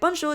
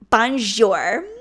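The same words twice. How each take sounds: First: It is said in a casual, offhand way. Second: It is said in an exaggerated, showy way.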